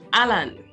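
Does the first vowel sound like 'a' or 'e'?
a. The first vowel sounds like a long 'a'. "they would say Alan"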